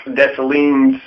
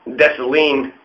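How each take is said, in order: First: Said in the usual way. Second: Dessalines said the French way, with no S sound at the end; French name. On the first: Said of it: "There's no S". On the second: Shown as a demonstration. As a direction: Dessalines with the final S left silent. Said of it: "There's no S. There is an S, but it's French".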